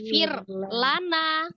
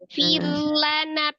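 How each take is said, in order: First: It is said with a break after fir. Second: It is said smoothly without a break. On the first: The speaker calls it wrong. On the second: The speaker calls it right.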